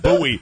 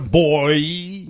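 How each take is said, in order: First: It is said differently from the word 'boy'. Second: It is said exactly like the word 'boy'. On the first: The speaker calls it right. "pronounce the thing the right way. It's a goddamn buoy" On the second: The speaker calls it wrong. "not a boy"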